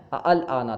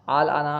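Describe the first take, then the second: First: "ال آنا" started with two separate glottal stops, a-al; original double hamza. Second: "آل آنا" opening on one long aa; hamza changed to alif. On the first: Teacher shows the original form, "ال آنا" with two hamzas. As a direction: sound both hamzas opening "ال آنا". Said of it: "اصل میں ال آنا تھا". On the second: Teacher compares with original, "آل آنا" with hamza as alif. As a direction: glide through "آل آنا" with no second glottal stop. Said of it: "دوسرے حمزہ کو الف سے بدل". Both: Shown as a demonstration.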